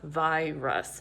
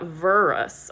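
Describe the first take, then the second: First: The first vowel is a long 'eye' sound. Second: The first vowel is an 'er' sound. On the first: The speaker calls it right. "I is open, I says I" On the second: The speaker calls it wrong. "So the word is not virus. I R is not saying er"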